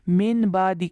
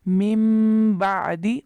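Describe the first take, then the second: First: The first word ends with a plain n sound. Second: The first word ends with a held nasal m. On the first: The speaker calls it wrong. "के बजाय" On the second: The speaker calls it right. "मिम बादी और गुन्ना भी किया, एक अलिफ के बराबर आवाज़ को खींचा"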